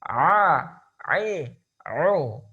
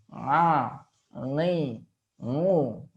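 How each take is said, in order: First: The sound comes from the throat, not the nose. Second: The sound is pushed through the nose. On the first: The speaker calls it right. "Pastikan jangan sampai ada getaran di rongga hidung kita" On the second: The speaker calls it wrong. "suara sering dimasukkan ke hidung sehingga terjadi seperti ini"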